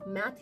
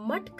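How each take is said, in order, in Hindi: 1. यह अंग्रेज़ी 'math' की तरह बोला गया है, 'a' स्वर के साथ। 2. यह हिंदी 'muth' की तरह बोला गया है, कठोर मूर्धन्य 't' के साथ। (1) "इंग्लिश लैंग्वेज में इसे मैथ ही बोला जाता है" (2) "इंग्लिश में मठ का रिप्रेजेंटेशन कर पाना बहुत मुश्किल है"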